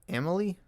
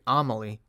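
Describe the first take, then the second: First: The name begins with an 'eh' sound. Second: The name begins with an 'ah' sound. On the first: The speaker calls it wrong. "It's not Emily" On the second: The speaker calls it right. "It's like Amelie"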